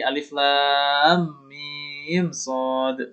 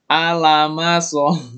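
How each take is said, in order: First: Each letter is named separately by its full name. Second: The letters are blended into one short word. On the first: The speaker calls it right. "tapi alif lam mim sod" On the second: The speaker calls it wrong. "bukan alama sod, bukan gitu ya"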